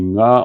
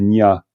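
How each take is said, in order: First: The syllable begins with an 'ng' sound. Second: The syllable begins with an 'ny' sound. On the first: The speaker calls it right. "quand on dit nga" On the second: The speaker calls it wrong. "on satisfait d'une espèce de nya"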